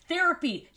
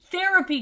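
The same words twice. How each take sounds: First: "Therapy" said firmly with a falling tune; emphatic. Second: "Therapy" punched higher and louder, falling; louder emphatic. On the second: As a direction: hit "Therapy" hard and high. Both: Shown as a demonstration. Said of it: "Therapy repeated, then louder".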